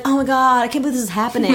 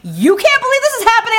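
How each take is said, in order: First: Slightly raised, retold amazement; understated quote of the guy's disbelief; mild disbelief. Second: High, loud mock indignation; outraged incredulity. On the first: Quoting guy, contrasted with her reply. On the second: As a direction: throw it back at him in a hammed-up screech. Her outraged echo of the guy.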